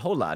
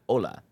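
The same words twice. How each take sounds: First: Hola is said with an English accent. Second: Hola is said with a Spanish accent. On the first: The speaker's Spanish is not native. The speaker calls it wrong. "He said hola" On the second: The speaker's Spanish is native. The speaker calls it right. "not hola"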